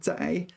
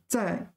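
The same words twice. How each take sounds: First: The syllable has a low dipping tone. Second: The syllable has a sharp falling tone. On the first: "在 third tone" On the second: "在 fourth tone"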